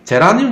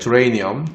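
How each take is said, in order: First: It is said as the Korean loanword, jeranyum. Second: It is said the English way, with 'ray' sound. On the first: "우리가 제라늄, 제라늄 하는 말 있잖아요" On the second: "그게 바로 어, 주레이늄인데요"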